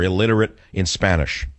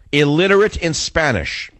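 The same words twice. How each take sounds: First: Said in the usual way. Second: "Illiterate in Spanish" pitched higher, hammered home; emphatic. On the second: Real, not acted. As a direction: punch out "Illiterate in Spanish" high, dropping at the end. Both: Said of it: "And I emphasize that".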